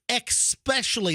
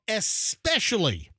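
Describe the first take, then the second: First: The word starts with an added 'ex' sound. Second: The word starts with a plain 'es' sound. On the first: The speaker calls it wrong. "They add an X" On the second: The speaker calls it right. "The word is especially"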